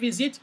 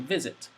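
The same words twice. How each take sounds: First: The stress is on the second syllable. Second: The stress is on the first syllable. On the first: The speaker calls it wrong. "We don't say visit" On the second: The speaker calls it right. "the stronger part is the first part"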